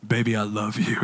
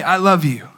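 First: Mock seductive. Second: Said in the usual way. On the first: Shown as a demonstration. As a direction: ham up a crooning husband. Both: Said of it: "No, I don't say it like that".

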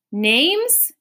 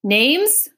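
First: Higher, louder insistent repeat; crying out. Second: Brisk official query, higher; brisk call. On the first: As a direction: demand it again impatiently. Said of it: "he cried again". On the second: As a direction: snap out the question like a clerk. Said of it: "called out briskly". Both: A narrator's reading.

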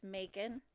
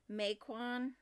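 First: Macon said "MAY-kən", weak second syllable; guessed as MAY-kin. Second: Macon said "may-KWAHN", second syllable like Quan; read as MAY-KWAN. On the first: Host guessing at the town's name, Macon as "MAY-kən". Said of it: "maybe it's Macon". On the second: Host reading the town list as spelt, Macon as "may-kwahn". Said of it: "It says Quan". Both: Shown as a demonstration.

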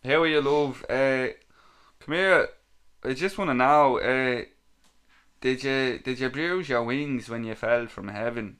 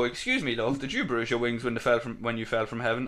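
First: Hammed-up Dublin chat-up; put-on Dublin accent for a cheesy pick-up line. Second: Said in the usual way. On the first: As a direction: lay on your best Dublin accent, starting loud. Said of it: "in my best Dublin accent". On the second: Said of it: "when you go".

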